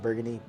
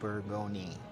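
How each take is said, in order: First: It is said with an English pronunciation. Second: It is said with a French pronunciation. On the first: "It's pronounced burgundy" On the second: "the people in France call it burgundy"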